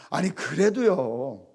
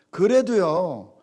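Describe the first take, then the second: First: Said in the usual way. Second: 그래도요 said slowly and louder; stress on 그래도요. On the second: Shown as a demonstration. Preacher insisting to congregation, slow emphatic 그래도요. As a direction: drag out 그래도요 with weight.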